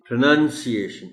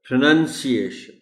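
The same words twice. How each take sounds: No difference in how they are said.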